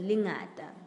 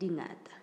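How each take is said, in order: First: The word begins with an L sound. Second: The word begins with a D sound. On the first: The speaker calls it wrong. "the L's are D's" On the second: The speaker calls it right. "But it's actually Dingata"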